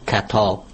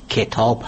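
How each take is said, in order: First: Said in the usual way. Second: کتاب said with a kasra on the kaf, ke-taab, not ka-taab; correct pronunciation. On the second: Shown as a demonstration. Teacher showing the radio audience the right way, کتاب as ke-taab.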